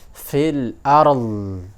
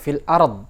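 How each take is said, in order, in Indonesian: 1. Konsonan akhir itu tetap berbunyi dan mengalir terus. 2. Konsonan akhir itu terputus mendadak. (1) "Jadi mengalir begitu" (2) "orang kan kebanyakan bacanya seperti itu fil ard ya"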